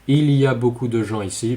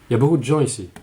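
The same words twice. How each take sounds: First: Il y a is said with all its sounds. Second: Il y a is reduced to ya. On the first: The speaker calls it wrong. "we don't say" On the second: The speaker calls it right. "but just"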